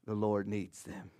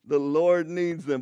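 First: Mock mind trick line. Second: Slow, louder, drawn-out proclamation of "The Lord needs them"; mock grand proclamation. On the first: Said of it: "not like a Jedi mind trick". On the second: Pastor joking about a shopkeeper, hammed-up slow proclamation. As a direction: declare "The Lord needs them" slowly like a magic command. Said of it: "you're gonna have to pay for that, sir".

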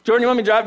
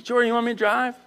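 First: Louder, pressing question; more urgent offer. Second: Light, unforced question; casual offer. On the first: Bethany asking the tired driver later, urgent. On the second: Bethany offering to drive, casual. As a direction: ask gently, rising at the end. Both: Retold or imitated.

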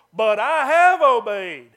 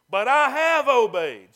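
First: Loud, slow, indignant protest; stubborn Saul protesting his innocence. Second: Loud, slow, stubborn insistence; defiant Saul denying his failure; indignant protest. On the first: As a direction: insist on it loudly, offended. Saul's defiant protest. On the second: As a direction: hammer it home, refusing to budge. Saul's defiant protest repeated. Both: Retold or imitated.

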